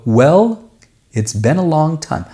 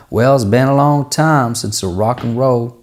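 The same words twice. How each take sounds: First: Well, it's been a long time said much higher and exaggerated; the wrong way, too lifted; overdone delivery. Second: Said in the usual way. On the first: Shown as a demonstration. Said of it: "I wouldn't go". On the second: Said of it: "I'm just talking, the lyric".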